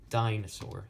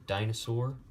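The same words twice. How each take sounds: First: "dinosaur" as stressed, unstressed, unstressed; dactylic stress. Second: Said in the usual way. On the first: Shown as a demonstration. Teacher showing a dactyl to learners, "dinosaur" stressed on its first syllable. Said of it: "stressed, unstressed, unstressed". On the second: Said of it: "So, like, the word".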